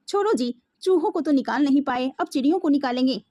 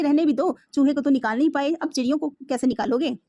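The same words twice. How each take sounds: First: Sarcastic. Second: Teasing. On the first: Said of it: "माँ ने व्यंग से कहा". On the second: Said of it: "माँ ने मजाक से कहा". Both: Acted.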